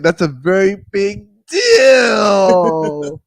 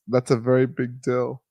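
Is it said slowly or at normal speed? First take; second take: slowly; normal speed. First: It is said slowly. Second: It is said at a normal pace.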